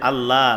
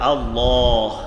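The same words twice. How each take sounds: First: The L is light and thin, lips spread. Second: The L is heavy and thick, lips rounded. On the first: The speaker calls it wrong. "নামের মধ্যে একদম পাতলা করে" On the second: The speaker calls it right. "মুখটাকে একটু গোল করে, লামটাকে মোটা করে উচ্চারণ করতে হবে"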